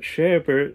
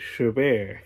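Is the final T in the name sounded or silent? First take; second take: sounded; silent. First: The final T is pronounced. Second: The final T is left silent. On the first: The speaker calls it wrong. "Not Chabert like I thought" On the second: The speaker calls it right. "the T is silent"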